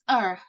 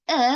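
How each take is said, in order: First: It is a short vowel ending in r. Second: It is a short vowel with no r. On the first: "if it came before vowels, it will pronounce like er with the pronounce er, pronounce r" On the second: "if it came before consonant, it will pronounce like uh"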